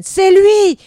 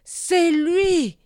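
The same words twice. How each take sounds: First: Screamed high and very loud; a hateful shriek of accusation; the shaman's furious shout; cry of hate. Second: High, loud cry from under a mask; shaman repeats his hateful cry behind the mask; muffled accusation. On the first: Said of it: "un cri de haine". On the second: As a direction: hurl the accusation through the mask. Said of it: "répéta-t-il". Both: Acted.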